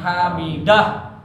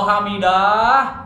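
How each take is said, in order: First: The first vowel is said short. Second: The first vowel is drawn out long. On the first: Allah hears the one who praises him. The speaker calls it right. "Pendek daknya, jangan dipanjangin" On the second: The meaning of the word is changed. The speaker calls it wrong. "Kalau hamidah berarti ada alif"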